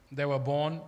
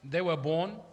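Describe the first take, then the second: No difference in how they are said.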